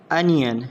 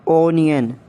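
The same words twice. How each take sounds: First: "Onion" as UN-yun; British pronunciation. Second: "Onion" as OH-nee-un; long O in "Onion"; mispronounced onion. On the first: Shown as a demonstration. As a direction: open "Onion" with an UH vowel. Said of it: "exact pronunciation according to the British". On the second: Acted. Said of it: "you have to correct me".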